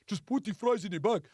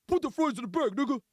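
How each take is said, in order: First: Imitation Nigerian accent; put-on Nigerian accent, brief order. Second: Imitation Haitian accent; put-on Haitian accent, brisk order.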